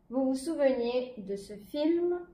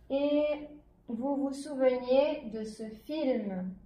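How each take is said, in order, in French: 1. La phrase est lue plus vite. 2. La phrase est lue plus lentement.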